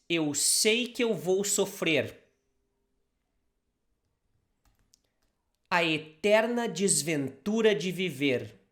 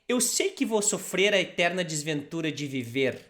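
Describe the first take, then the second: First: It is said slowly, in small pieces. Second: It is said faster, all at once.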